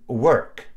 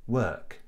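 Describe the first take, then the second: First: "work" drawn out with the R sounded; rhotic R. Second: "work" with a silent R, as in RP; non-rhotic vowel. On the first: Teacher showing American-style pronunciation, R sounded in "work". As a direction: curl the tongue up and back in "work". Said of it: "the R is actually pronounced". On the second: Teacher contrasting with BBC English, R-less "work". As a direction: keep the tongue neutral in "work", no R. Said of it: "the R after the vowel is silent". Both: Shown as a demonstration.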